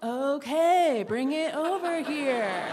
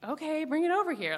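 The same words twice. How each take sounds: First: Slower, louder, spelled-out okay; patient insistence. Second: Said in the usual way. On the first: Retold or imitated. Girl repeating her offer, slow and emphatic. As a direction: say it again, more deliberately this time.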